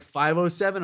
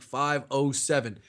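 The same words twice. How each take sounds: First: "Five oh seven" pitched up as a question; "Five oh seven" higher, lifting at the end; questioning echo. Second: "Five oh seven" slowly, falling at the end; "Five oh seven" slow and final, as a statement; firm confirmation. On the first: Retold order echoed as a question. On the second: Retold confirmation of the order. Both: Retold or imitated.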